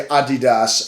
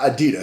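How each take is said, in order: First: It is said with a German pronunciation. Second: It is said with an American pronunciation. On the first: The speaker calls it right. "Simon will say Adidas" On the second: The speaker calls it wrong. "and not Adidas. So actually in the United States we're saying it wrong"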